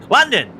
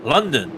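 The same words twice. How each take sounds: First: A bright, higher, louder cry of London! like a vintage British newsreel; old newsreel announcer. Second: Said in the usual way. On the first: Acted. Commentator spoofing an old British newsreel, hammed-up announcer cry. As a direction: announce London! the way an old Pathé reel opens. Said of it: "I could do a British Pathé news". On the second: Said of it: "I can't do the old classic British London accent".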